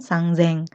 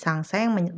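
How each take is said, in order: First: The middle consonant is a voiced z sound. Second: The middle consonant is a voiceless s sound. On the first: The speaker calls it right. "melainkan sangzeng" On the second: The speaker calls it wrong. "tiga ribu tidak dibaca menjadi sangseng"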